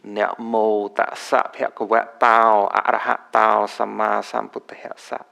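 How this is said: It is pronounced in the Khmer Pali style. "in this Khmer style pronunciation"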